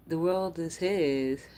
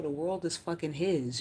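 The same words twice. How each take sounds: First: The world is his said slowly and louder, every word weighted; slow emphatic repeat. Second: Said in the usual way. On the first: Shown as a demonstration.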